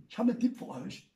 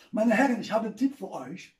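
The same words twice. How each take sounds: First: Fast and softer repeat; quick aside. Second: Said in the usual way. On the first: Shown as a demonstration. Comedian repeating his tip to the audience, quick and softer. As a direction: rattle it off under your breath. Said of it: "repeated faster". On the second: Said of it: "repeated announcement".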